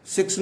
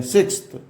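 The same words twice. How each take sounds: First: सिक्स ending on the s, no th; wrong form. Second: सिक्स्थ with a th after the s; higher, sound the th closing सिक्स्थ; correct ordinal form. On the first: Teacher warns students off this form, सिक्स without th. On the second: Teacher corrects students' form, सिक्स्थ with final th. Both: Shown as a demonstration. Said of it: "सिक्स नहीं बोलते हैं".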